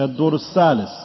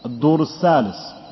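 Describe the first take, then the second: First: The last word begins with an 's' sound. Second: The same.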